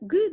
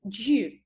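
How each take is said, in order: First: The G is hard, like in girl. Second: The G is soft, like a j sound.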